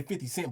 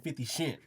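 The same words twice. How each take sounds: First: Said in the usual way. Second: Fifty Cent with Cent said as "shent", a soft "sh" in place of the "s"; playful imitation, "shent" for Cent; imitating her slurred Cent. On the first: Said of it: "you supposed to say [name]". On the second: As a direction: mimic the braces slur on fifty Cent, Cent as "shent". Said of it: "but you said [name]".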